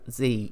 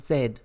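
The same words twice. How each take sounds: First: The letter is said the American way, 'zee'. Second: The letter is said the British way, 'zed'.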